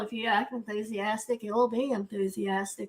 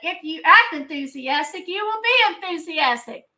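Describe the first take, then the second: First: It is said in a flat, monotone voice. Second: It is shouted out with loud, lively energy. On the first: The speaker calls it wrong. "You can't be monotone" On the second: The speaker calls it right. "you got to shout it out"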